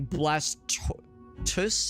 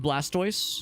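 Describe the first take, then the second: First: The ending sounds like the end of tortoise. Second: The ending sounds like the word toys. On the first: "Because of like the tortoise" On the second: "I pronounce it as Blastoise"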